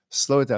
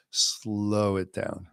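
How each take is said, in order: First: Said in the usual way. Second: Long drawn-out SLOW, very unhurried; slowed right down. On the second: Shown as a demonstration. Teacher showing students how to catch a thought, drawn out. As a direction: stretch the word slow way out.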